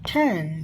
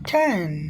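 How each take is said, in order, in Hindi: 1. पहले व्यंजन में हवा का तेज़ झोंका होता है। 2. पहले व्यंजन में हवा का तेज़ झोंका होता है।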